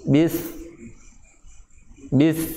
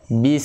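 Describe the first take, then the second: First: The final s shifts as the tongue rises. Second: The final s stays clean and unchanged. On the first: The speaker calls it wrong. "ketika di akhirnya ini naik si lidah" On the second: The speaker calls it right. "Jadi bunyi bagaimana seharusnya? ... nggak berubah"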